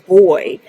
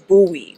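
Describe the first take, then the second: First: It is one syllable, sounding like 'boy'. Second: It is two syllables, sounding like 'boo-ee'. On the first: This is how people in Belfast say it. "here in Belfast, they pronounce them boy" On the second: This is how Americans say it. "America pronounce it buoy"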